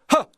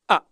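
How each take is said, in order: First: The vowel starts softly with a breathy h. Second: The vowel starts with a hard glottal catch. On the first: The speaker calls it right. "It's called a soft onset, but we're starting with a, a bit of an H" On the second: The speaker calls it wrong. "this sort of ah, ah, ah, than that sort of thing happening"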